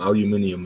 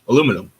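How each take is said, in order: First: It is said the British way, five syllables. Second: It is said the American way, four syllables. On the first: He is adopting the listener's regional form. "I only said it like that to" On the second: This is his usual form. "He normally says it the correct way"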